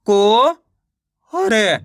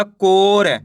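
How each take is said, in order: First: को drawn out and rising, pause, then र; को ... र with a long gap; syllable by syllable. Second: Said in the usual way. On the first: Shown as a demonstration. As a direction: sound out को and र separately. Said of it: "एक अक्षर का उच्चारण करके". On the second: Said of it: "मिलके बन जाएगा".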